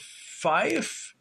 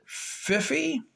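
First: Fife said as one syllable, rhyming with life; one-syllable pronunciation. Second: Fiffy in two syllables, rhyming with iffy; two-syllable pronunciation. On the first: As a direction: say Fife with a long i and silent e. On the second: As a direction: say Fiffy with short i and final ee. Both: Shown as a demonstration. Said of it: "or is it Fiffy?".

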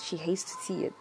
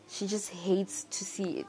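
First: Soft unvoiced whisper; breathy hushed repeat; whispered aside. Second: Said in the usual way. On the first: Real, not acted. Repeating the mother's view.

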